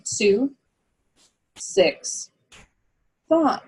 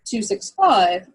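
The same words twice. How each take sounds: First: The numbers are said slowly with pauses. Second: The numbers are said quickly together.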